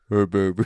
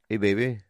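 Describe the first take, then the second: First: It is said in a deeper voice. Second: It is said in a normal voice.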